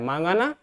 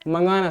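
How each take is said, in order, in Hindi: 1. पहला स्वर लंबा है। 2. पहला स्वर छोटा है। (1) "मांगाना गलत होता है" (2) "मंगाना सही होता है"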